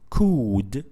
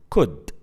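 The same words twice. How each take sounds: First: The vowel is long. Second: The vowel is short. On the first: The speaker calls it wrong. "We don't pronounce it could" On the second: The speaker calls it right. "we pronounce it shortly as a short vowel sound"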